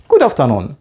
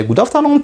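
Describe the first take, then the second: First: Said in the usual way. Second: High, bright good afternoon; bright greeting. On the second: Shown as a demonstration. Teacher greeting class, high and bright. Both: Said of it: "or you simply say".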